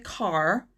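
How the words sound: The R at the end is pronounced. This is the American way of saying it. "In American English, you would probably say car"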